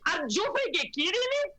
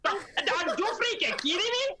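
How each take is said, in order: First: Put-on high Venezuelan accent, rising outrage; Venezuelan accent impression. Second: Venezuelan accent impression. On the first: Mother repeating a Venezuelan rally woman's accent for the panel. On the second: Mother imitating a Venezuelan rally woman's accent for the panel. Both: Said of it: "obsessed with her accent".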